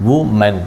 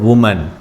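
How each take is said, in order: Both takes have the same delivery.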